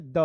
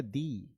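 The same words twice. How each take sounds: First: द said as a short उh sound. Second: दी said with a long ई sound. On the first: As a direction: say द short, like the before consonants. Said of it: "एक होता है द". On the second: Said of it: "एक होता है दी". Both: Shown as a demonstration. Teacher contrasting the two sounds of the for students.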